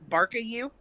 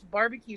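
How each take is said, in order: First: The middle consonant is a k sound. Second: The middle consonant is a b sound. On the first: The speaker calls it wrong. "he can't say barbecue. So when he says it, it comes out barka you" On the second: The speaker calls it right. "no, Adam, it's barbecue"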